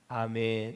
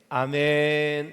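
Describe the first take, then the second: First: It is said very quietly, barely audible. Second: It is said at a moderate volume.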